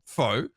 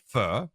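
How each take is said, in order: First: The name is said with an "oh" vowel. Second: The name is said with an "er" vowel.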